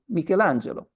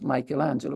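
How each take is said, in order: First: The name has a non-American pronunciation. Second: The name has an American pronunciation.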